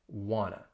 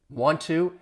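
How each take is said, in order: First: The words are reduced and blended into one. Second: Both words are said fully and separately.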